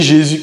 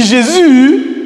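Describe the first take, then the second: First: Said in the usual way. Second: High, loud, drawn-out "Jésus"; exclaimed intonation. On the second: Shown as a demonstration. Teacher contrasting two takes for a class, loud exclamation. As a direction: cry out Jésus, lifting and holding the end. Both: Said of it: "vous voyez que c'est pas pareil".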